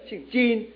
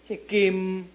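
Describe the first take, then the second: First: The name starts with a soft j sound. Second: The name starts with a hard k sound. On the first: This is the standard Mandarin reading. "我们普通话念姓金J I N" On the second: This is the Southern Min reading. "我们闽南话怎么念的？"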